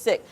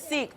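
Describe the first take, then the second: First: The vowel is short, like in sick. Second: The vowel is long, like in seek. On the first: This is how the community itself says it. The speaker calls it right. "but they pronounce it sick" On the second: This is how outsiders usually say it. The speaker calls it wrong. "oftentimes we hear Sikh"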